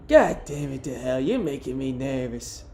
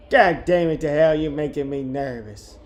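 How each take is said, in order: First: A hint of a nervous woman, put-on timbre; woman's voice. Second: Lightly voiced irritated woman, loud start falling away; first rough try at an exasperated woman; woman's voice attempt. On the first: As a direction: lightly put on an exasperated woman's voice. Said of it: "woman's voice better than that". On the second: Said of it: "How do I do a woman's voice".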